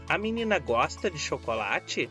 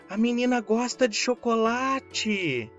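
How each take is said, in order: First: It has a questioning intonation. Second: It has a strong, emphatic exclaiming intonation. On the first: It asks whether it is true. "É uma pergunta" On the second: It expresses strong feeling about it. "É uma exclamação"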